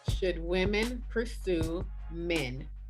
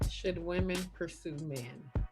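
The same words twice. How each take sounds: First: It is said loudly, projected to the back. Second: It is said quietly, in a low sultry voice.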